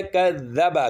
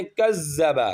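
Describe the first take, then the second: First: کذب spoken slowly with a true ذال sound; careful slow کذب; slow correct version. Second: کذب said with a z sound instead of ذال; the students' mistake, کذب with z; mispronounced کذب, ذ as z; wrong z sound. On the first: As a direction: slowly model کذب with the proper ذ. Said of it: "یہ ہے کذب". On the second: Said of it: "کزی کی sound نکالتے ہیں". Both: Shown as a demonstration.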